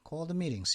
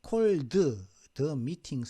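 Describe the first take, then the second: First: The word 'the' is said only once. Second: The word 'the' is said twice. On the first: "이렇게 발음을 해주거든요" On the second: "둘 중에 하나는 생략되는 거예요"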